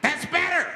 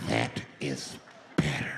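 First: Much higher, louder exclamation; high, loud approval. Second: Very low, drawn-out creepy delivery; low, slow menace. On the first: Flasher to the quieted bus, high and loud. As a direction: pitch it way up and loud. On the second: Flasher savouring control of the bus, low and slow. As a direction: drop right down, word by word. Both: Acted.

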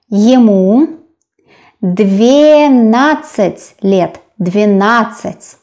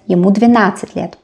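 First: "двенадцать" stretched into long, separate syllables; careful, very slow model of "двенадцать"; slow sounding-out. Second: "двенадцать" run together quickly; fast, connected phrase with "двенадцать" unbroken; natural-speed repeat. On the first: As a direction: draw out "двенадцать" for a learner. Teacher sounds out new number. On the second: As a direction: say "Ему двенадцать лет" in one brisk flow. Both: Shown as a demonstration.

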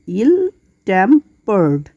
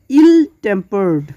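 First: ইল টেম্পার্ড split slowly into ইল, টেম, পার্ড; three separate beats for ইল টেম্পার্ড, pausing between them; syllable by syllable. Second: Said in the usual way. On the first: Shown as a demonstration. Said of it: "তিনটি সিলেবলে ভাগ করতে". (ইল টেম্পার্ড, ধীরে তিন সিলেবলে ভাগ করে) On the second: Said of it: "next word".

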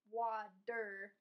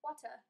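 First: "water" with a flapped t, wah-der; American water. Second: "water" with a crisp t, wah-tuh; British water. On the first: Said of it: "I say water as". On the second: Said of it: "they say water". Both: Shown as a demonstration.

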